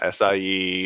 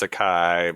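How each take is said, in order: First: The word is said with a foreign-sounding pronunciation. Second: The word is said with an anglicized pronunciation. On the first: The speaker calls it wrong. "It's not acai" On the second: The speaker calls it right. "So how do you say it in English? ... it's acai"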